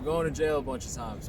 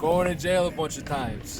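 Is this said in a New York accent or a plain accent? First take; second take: plain; New York. First: It is said in the speaker's ordinary accent. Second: It is said in an attempted New York accent.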